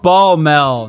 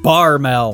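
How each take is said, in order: First: The middle consonant is an L sound. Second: The middle consonant is an R sound. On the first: The speaker calls it right. "It's Balmel" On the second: The speaker calls it wrong. "not Barmel"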